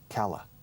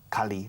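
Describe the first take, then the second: First: The second syllable has a weak 'uh' vowel. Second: The second syllable has a clear 'ee' vowel. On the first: The speaker calls it right. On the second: The speaker calls it wrong.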